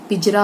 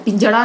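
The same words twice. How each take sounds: First: पिंजरा with a plain र in the middle; पिंजरा said the right way, with र; correct pinjra. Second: पिंजड़ा with a flapped ड़ in the middle; पिंजड़ा said the wrong way, with ड़; wrong pinjada. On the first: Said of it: "पिंजरा होता है". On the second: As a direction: say पिंजड़ा with a hard retroflex flap. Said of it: "पिंजड़ा नहीं होता है". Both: Shown as a demonstration.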